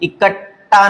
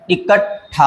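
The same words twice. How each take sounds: First: इकट्ठा said as 'ikat-taa'; no puff of breath ending इकट्ठा; wrong unaspirated ending. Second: इकट्ठा said as 'ikat-thaa'; correct aspirated ending. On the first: Teacher rejects a common error, इकट्ठा with unaspirated taa. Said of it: "नहीं होता". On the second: Teacher gives the correction, इकट्ठा with aspirated thaa. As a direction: puff the breath on ठा in इकट्ठा. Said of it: "होता है". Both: Shown as a demonstration.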